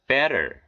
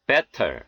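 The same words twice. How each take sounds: First: 'Better' with T as an R-like tap; American flapped T. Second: 'better' with a clear hard T; unflapped T. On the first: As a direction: flap the T in 'Better'. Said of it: "연음 현상이 들어가서 이렇게". ('Better'의 T를 ㄹ처럼) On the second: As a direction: release the T in 'better' fully. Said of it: "이렇게 발음해 틀린 것은 아니". ('better'의 T를 또렷한 ㅌ로) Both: Shown as a demonstration.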